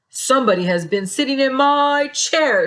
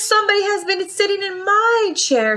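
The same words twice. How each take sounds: First: It is said in a big, deep bear voice. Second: It is said in a middle-sized, medium-pitched voice.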